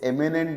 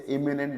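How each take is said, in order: First: एमिनेंट with an open e sound at the start; eminent pronounced. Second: इमिनेंट with a short i sound at the start; imminent pronounced. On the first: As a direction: say एमिनेंट starting on a clear 'e'. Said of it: "इसे एमिनेंट बोलते हैं". (एमिनेंट को 'ए' से शुरू करके बोलें) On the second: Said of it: "इसे इमिनेंट बोलते हैं". (इमिनेंट को छोटी 'इ' से शुरू करके बोलें) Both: Shown as a demonstration.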